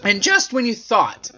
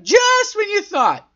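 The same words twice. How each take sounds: First: Said in the usual way. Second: High-pitched, drawn-out put-on voice; exaggerated singsong parody; mock dramatic. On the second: Shown as a demonstration. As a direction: stretch it out high like a silly echo. Mocks own phrase after hearing it.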